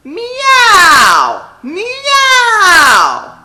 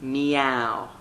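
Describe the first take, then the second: First: High, loud meow like a cat; belted cat meow; exploding cat meow. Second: Said in the usual way. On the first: Shown as a demonstration. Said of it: "really explode on it". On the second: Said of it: "we're gonna go".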